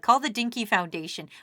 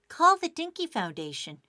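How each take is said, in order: First: It is said in a plain, ordinary voice. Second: It is said in a put-on commercial voice. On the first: The speaker calls it wrong. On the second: The speaker calls it right.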